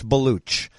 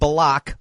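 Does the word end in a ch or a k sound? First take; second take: ch; k. First: The word ends with a ch sound. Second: The word ends with a k sound. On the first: This is how the name is really said. The speaker calls it right. "but it's Baluch" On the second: This is how the spelling looks. The speaker calls it wrong. "it looks like Balak"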